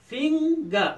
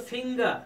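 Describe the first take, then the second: First: "فنگر" broken in two as fing-ga, higher and louder; split into syllables. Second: Said in the usual way. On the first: Shown as a demonstration. Teacher showing pupils the syllable divisions, "فنگر" split as fing-ga. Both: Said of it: "syllable divisions".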